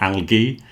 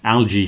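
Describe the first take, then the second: First: It is said with a British pronunciation. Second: It is said with an American pronunciation. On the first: "The English one is more algae" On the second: "Algae seems to be more American"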